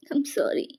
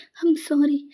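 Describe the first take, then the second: First: Whisper. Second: Said in the usual way. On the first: Acted. Whispered apology while crying.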